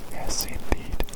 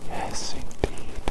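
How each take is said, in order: Both takes have the same delivery.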